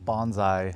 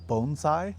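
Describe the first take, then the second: First: The first syllable does not sound like 'bone'. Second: The first syllable sounds like 'bone'. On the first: This is how many people in the United States say it. The speaker calls it wrong. "which a lot of people call it bonsai in uh, the United States" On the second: This is the original pronunciation. The speaker calls it right. "the correct pronunciation is bonsai, uh, like bone sai"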